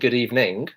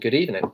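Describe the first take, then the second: First: The final g of evening is pronounced. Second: The final g of evening is dropped. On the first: "you can notice I'm not saying" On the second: "I'm saying"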